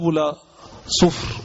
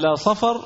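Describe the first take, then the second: First: The second word begins with a 'u' vowel. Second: The second word begins with an 'a' vowel. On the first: The word means brass. The speaker calls it wrong. "بعض الناس نطقها باب لا صفر، وهذا خطأ" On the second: The word names the well-known month. The speaker calls it right. "قيل صفر هو الشهر المعروف"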